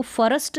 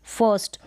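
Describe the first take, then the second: First: फर्स्ट stretched to "fa-rast", R fully sounded; wrong full-R pronunciation. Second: फर्स्ट as "fast" with an "uh" vowel, R unheard; silent-R pronunciation. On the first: Teacher shows learners what not to say, full-R फर्स्ट. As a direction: say फर्स्ट with a vowel after a full R. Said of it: "अब इसको फर्स्ट नहीं बोल सकते". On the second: Teacher models it for learners, R-less फर्स्ट. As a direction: drop the R in फर्स्ट, one syllable. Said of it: "अब र का sound सुनाई नहीं दे रहा होगा". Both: Shown as a demonstration.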